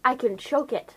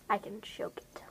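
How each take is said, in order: First: Said in the usual way. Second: A menacing whisper to herself. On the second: Acted. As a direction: breathe the line, no voice. Repeats the line, then whispers.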